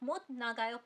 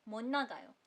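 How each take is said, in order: First: The first word ends with a t sound. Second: The first word ends with an n sound. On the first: It is spoken slowly and carefully. "इसको आप मोत नागायो पढ़ सकते हो अगर आप धीमे धीमे बोल रहे हो" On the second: It is spoken at a normal pace. "अगर आप नॉर्मल पेस पे नॉर्मली एक सेंटेंस बना रहे हो"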